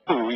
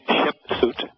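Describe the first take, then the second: First: The name ends without any T sound. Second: The name ends with a clear T sound.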